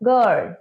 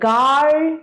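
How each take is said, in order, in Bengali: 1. স্বরধ্বনিটি হ্রস্ব রাখা হয়। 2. স্বরধ্বনিটি টেনে দীর্ঘ করে বলা হয়। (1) "রস্য আ আটা ছোট করে" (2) "আমরা কি বলি গার্ল বলি না"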